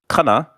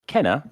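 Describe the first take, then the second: First: The first vowel is an open 'ah' sound. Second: The first vowel is a short 'eh' sound. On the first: The speaker calls it wrong. "and not Kana" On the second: The speaker calls it right. "it's pronounced Kenna"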